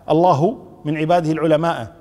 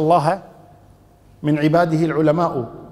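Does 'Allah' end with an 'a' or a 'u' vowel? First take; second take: u; a. First: Allah ends with a u vowel. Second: Allah ends with an a vowel. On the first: God is the one who fears the scholars. The speaker calls it wrong. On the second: Scholars are the ones who fear God. The speaker calls it right.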